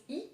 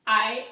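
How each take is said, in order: First: "I" said as French "ee"; French vowel "ee" for "I". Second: Said in the usual way. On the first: Shown as a demonstration. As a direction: pronounce "I" like "ee". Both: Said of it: "I is I in French".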